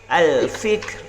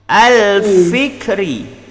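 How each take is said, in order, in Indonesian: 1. Kata itu berakhir pada konsonan r. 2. Kata itu berakhir dengan vokal pendek setelah r.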